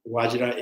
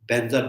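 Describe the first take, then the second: First: The word starts with a V sound, Sanskrit-style. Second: The word is said as Benza, Tibetan-style. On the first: "Actually, it's Vajra" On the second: "Tibetan have, you know, the the, the pronunciations"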